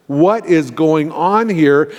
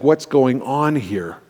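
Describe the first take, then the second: First: Slow "What is going on here", each word spelled out; drawn-out, weighted "What is going on here"; emphatic bewilderment. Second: Said in the usual way. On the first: Retold or imitated. Repeats the question with emphasis.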